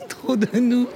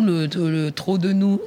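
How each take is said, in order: First: Laughing. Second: Said in the usual way. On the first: Real, not acted. Repeats phrase, then laughs.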